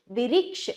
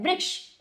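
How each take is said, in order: First: "विरिक्ष" broken open, vi-riksh; softer, careful "विरिक्ष" with an extra vowel; slow sounding-out. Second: "वृक्ष" as one quick syllable; said quickly. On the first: ("विरिक्ष" को तोड़कर, धीरे) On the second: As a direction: run "वृक्ष" together, vriksh. ("वृक्ष" को जल्दी, एक साथ) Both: Shown as a demonstration. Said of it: "इसको जल्दी बोला जाता है".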